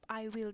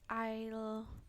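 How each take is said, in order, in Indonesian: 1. Kedua kata diucapkan secara penuh. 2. Kedua kata itu disingkat menjadi satu suku kata. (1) "I will itu artinya memang tetap I will" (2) "bacanya kita boleh I'll"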